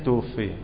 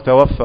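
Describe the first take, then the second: First: The word ends with an i vowel. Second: The word ends with a long a vowel. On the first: The dead person was taken by another. The speaker calls it right. "الصحيح توفي" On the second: The dead person did the taking of life. The speaker calls it wrong. "وقول توفى"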